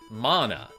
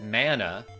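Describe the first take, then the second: First: The word is said the original Polynesian way. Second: The word is said the usual gaming-community way. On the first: This is how the source language says it. The speaker calls it right. "it's like a Polynesian word ... and they pronounce it mana" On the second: This is how players commonly say it. The speaker calls it wrong. "your community says it mana"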